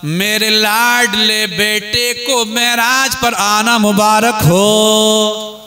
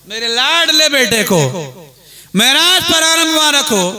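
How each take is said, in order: First: Slow, sustained proclamation with a long drawn-out ending; proclaimed blessing. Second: Higher-pitched emphatic proclamation in two bursts; emphatic repeated blessing. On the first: Ibrahim congratulating his beloved son on Meraj, proclaimed blessing. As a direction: stretch the blessing out, holding the last word. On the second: Preacher repeating Ibrahim's words for the crowd, emphatic repeated blessing. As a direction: break it in two and lift the second half. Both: Acted.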